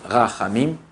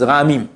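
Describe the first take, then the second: First: The middle consonant is a harsh guttural sound. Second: The middle consonant is a soft, light sound. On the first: The speaker calls it right. "au lieu de dire rahamim" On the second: The speaker calls it wrong. "ils disent rahamim"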